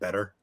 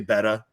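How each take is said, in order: First: It is said in a neutral accent. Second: It is said in a Long Island accent. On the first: The speaker calls it right. "instead of better" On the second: The speaker calls it wrong. "I would say better"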